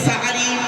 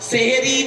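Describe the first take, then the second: First: The word begins with 'sa', vowel a. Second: The word begins with 'se', vowel e. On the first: The speaker calls it right. "সিনে জবর দিলে সাহারুন" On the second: The speaker calls it wrong. "ভুলটা ভাঙলো"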